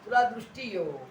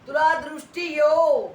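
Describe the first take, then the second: First: Said in the usual way. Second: High, very loud proclamation; imitated healing command. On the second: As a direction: declare the healing with full authority. (मोठ्या, उंच स्वरात आज्ञा)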